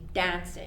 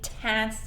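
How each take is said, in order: First: It begins with a thick D-like sound. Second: It begins with a sharp T sound. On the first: The speaker calls it right. "we say dance. So it's a thick T D sound" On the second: The speaker calls it wrong. "we don't say tance"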